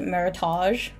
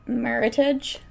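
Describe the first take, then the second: First: The ending is pronounced the French way. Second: The ending rhymes with the English word heritage. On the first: The speaker calls it wrong. "a lot of people think it's French, so they pronounce it Meritage" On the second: The speaker calls it right. "It's a combination between the wines... Merit and heritage"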